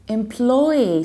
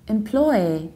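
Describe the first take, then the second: First: The stress falls on the second syllable. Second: The same.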